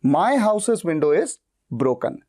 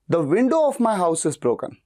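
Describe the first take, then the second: First: Very slow, my leaned on; stress on my. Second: Slow, window leaned on first; stress on window. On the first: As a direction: hit my, drawn out. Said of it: "इस तरह से". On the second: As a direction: slowly hit window. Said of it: "मैं खिड़की पे जोर दे रहा हूं". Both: Shown as a demonstration.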